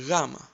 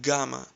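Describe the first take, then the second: First: The word begins with a soft gh sound. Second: The word begins with a hard G sound. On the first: "replace G with W and try to say Gamma" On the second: "You must have heard it like Gamma"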